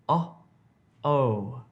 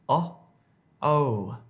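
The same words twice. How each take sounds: The two takes are said the same way.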